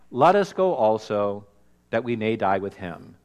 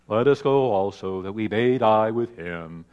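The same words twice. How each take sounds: First: It is said in a plain voice. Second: It is said in a gloomy Eeyore voice.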